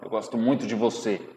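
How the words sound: It is said in a hateful, angry way.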